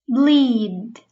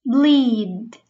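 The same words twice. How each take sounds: No difference in how they are said.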